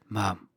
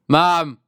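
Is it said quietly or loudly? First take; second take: quietly; loudly. First: It is said very quietly. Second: It is said loudly.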